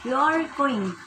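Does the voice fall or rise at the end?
fall. It is a statement with a falling end.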